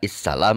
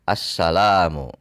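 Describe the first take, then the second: First: The word begins with an i vowel. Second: The word begins with an a vowel. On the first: The speaker calls it wrong. "Tidak issalam" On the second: The speaker calls it right. "tapi assalamu"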